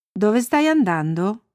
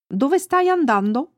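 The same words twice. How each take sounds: First: Slower question in the teller's own pitch; a lightly voiced boy asking, unhurried; Olle. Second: Lightly voiced dog, pitched higher; friendly dog. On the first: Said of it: "Poco dopo incontrò Olle". (domanda lenta, a voce naturale) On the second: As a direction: ask as a friendly dog, voice lifted. Il cane interroga Annika. (voce leggermente acuta da cane amichevole)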